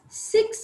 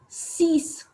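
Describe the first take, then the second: First: It is said with an English pronunciation. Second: It is said with a French pronunciation. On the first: "we pronounce it as six in English" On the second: "in French we pronounce it as six"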